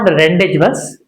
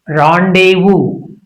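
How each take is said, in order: First: The z in rendezvous is pronounced aloud. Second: The z in rendezvous is left silent. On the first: The speaker calls it wrong. "It's not rendezvous" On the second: The speaker calls it right. "it's rendezvous. French origin"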